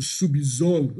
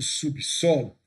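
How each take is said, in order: First: The middle consonant sounds like a z. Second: The middle consonant sounds like an s. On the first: The speaker calls it wrong. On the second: The speaker calls it right.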